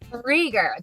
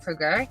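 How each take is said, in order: First: The first syllable has an 'ee' vowel. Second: The first syllable has an 'oo' vowel. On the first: The speaker calls it right. "There we go" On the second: The speaker calls it wrong. "I said that correctly, right?"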